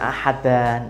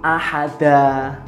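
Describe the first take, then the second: First: The word ends in an n sound. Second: The word ends in a long a vowel. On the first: The speaker calls it wrong. "bukan ahadan" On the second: The speaker calls it right. "mat itu kan artinya panjang"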